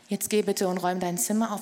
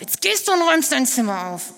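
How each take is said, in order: First: It is said in a calm, friendly tone. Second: It is said in a loud, harsh tone.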